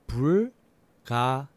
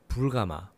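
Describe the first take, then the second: First: The word is said slowly. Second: The word is said faster.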